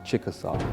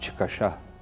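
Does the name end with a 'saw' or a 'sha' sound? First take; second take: saw; sha. First: The name ends with a 'saw' sound. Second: The name ends with a 'sha' sound. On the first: This is the anglicized English form of the name. "in English, you just say Chickasaw" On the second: This is the people's own name for themselves. "but in the language, it's Chickasha"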